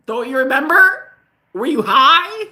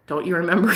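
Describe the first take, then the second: First: High, loud incredulous challenge; mock indignation. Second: Said in the usual way. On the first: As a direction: act out an exasperated accusation. Indignant repeat in retold argument.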